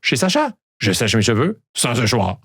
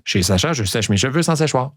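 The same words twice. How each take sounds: First: «sèche mes» and «séchoir» slurred into «sèchm e» and «səchwa»; botched tongue twister. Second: «Chez Sacha, je sèche mes cheveux sans séchoir» said cleanly, every ch and s clear; smooth tongue twister. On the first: Host pretends to fail the twister, tongue-tied. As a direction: trip over the sibilants. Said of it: "c'est fâchant, hein?". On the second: Host brags to listeners, a clean confident take. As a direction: show off how easy it is. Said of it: "Regardez comme c'est facile". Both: Shown as a demonstration.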